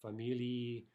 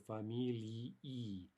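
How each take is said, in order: First: Familii said fast, the two final syllables run together; quick blurred ending. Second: Familii said very slowly, the ending split into two clear syllables; careful two-syllable ending. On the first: Teacher showing how quick speech blurs familii. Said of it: "if you say it quickly". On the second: Teacher showing students the clear two-syllable familii ending. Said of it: "if we're speaking clearly". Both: Shown as a demonstration.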